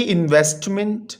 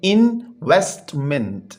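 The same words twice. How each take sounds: First: Said in the usual way. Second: इन्वेस्टमेंट in three separate beats, in-vest-ment; syllable by syllable. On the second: Shown as a demonstration. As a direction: pause between each syllable of इन्वेस्टमेंट. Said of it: "ये three syllable word है". (انویسٹمنٹ کو تین ٹکڑوں میں الگ الگ بولیں)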